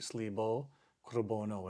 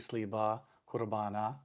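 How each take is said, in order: First: The words end with an O vowel sound. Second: The words end with an A vowel sound. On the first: This is the West Syriac pronunciation. "West egg would be slibo, kurbono. It has an O sound" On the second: This is the East Syriac pronunciation. "Easter egg uses the A sound or the A sound at the end"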